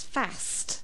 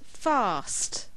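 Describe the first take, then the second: First: The word is said with a northern English accent. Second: The word is said with a non-northern English accent.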